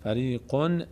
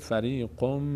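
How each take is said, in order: First: The final n is clearly pronounced. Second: The final n merges into an m sound. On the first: The speaker calls it wrong. "فریقون نمیگیم" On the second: The speaker calls it right. "نون تلفظ نمیشه، میشه فریقم"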